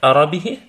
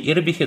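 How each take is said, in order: First: The word begins with an open a vowel. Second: The word begins with a close i vowel. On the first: "Можно сказать «арабихи», тогда это будет владел своей страстью" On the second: "или «ирбихи»"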